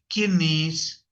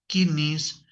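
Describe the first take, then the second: Both takes have the same delivery.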